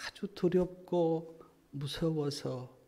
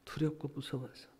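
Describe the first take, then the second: First: Slow and soft, weighted on 두렵고. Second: Much softer, hushed repeat; softly. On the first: Preacher slowly describing the lost sheep's fear. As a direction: lay out 두렵고 무서워서 slowly, heavy with fear. First take of the phrase. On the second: Preacher repeating 두렵고 무서워서 hushed for the congregation. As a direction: let it sink in, almost under the breath. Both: Acted.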